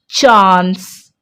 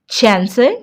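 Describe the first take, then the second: First: The vowel is a long open 'ah' sound. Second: The vowel is a short flat 'a' sound. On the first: The speaker calls it right. "It's chance. A here sounds double A" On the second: The speaker calls it wrong. "not chance"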